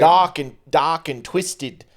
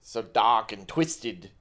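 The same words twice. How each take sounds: First: Put-on slow "dark and twisted" in a failed Australian accent; attempted Australian accent, still English. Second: Slow "So dark and twisted", nearer Australian; an Australian voice that almost lands; closer Australian accent. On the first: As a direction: drag it out, going for Australian. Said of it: "you're still doing English". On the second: Pretend. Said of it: "that was closer".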